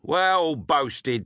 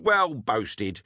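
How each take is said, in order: First: Sarcastic "Well boasted", leaning on "Well"; mocking praise. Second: Sarcasm that settles back; mild mock praise. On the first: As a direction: jeer at the boy's boast. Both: A narrator's reading. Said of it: "At this all laughed aloud".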